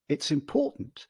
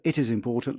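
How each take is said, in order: First: The words 'it is' are contracted together. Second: The words 'it is' are said in full. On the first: "let's go to it's important" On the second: "So instead of"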